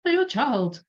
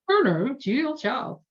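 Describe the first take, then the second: First: Put-on second try at Julia Child, pitched up high; high, warbly Julia Child attempt, still rough; a hint of Julia Child, pitched high; Julia Child impression. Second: High, lilting Julia Child imitation, badly done; a clumsy stab at Julia Child's voice; lightly voiced Julia Child, pitched up high; Julia Child impression. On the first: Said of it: "I'll stop trying to do Julia Child's accent". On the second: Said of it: "Really horrible at doing accents".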